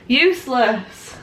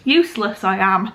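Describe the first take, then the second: First: Useless drawn out slowly with a falling tune; slow emphasis. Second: Said in the usual way. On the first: Real, not acted. Telling viewers she forgot something, slow mock self-scolding.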